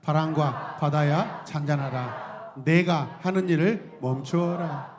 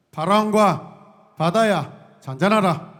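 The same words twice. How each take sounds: First: Slow, measured recitation; call-and-response reading; slow group recitation. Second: Slow, loud rebuke to the storm; booming command to wind and sea. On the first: Shown as a demonstration. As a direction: lead the congregation, slowly. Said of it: "함께 해보세요. 시작". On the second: Acted. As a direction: proclaim it slowly and grandly. Pastor voices Jesus commanding storm.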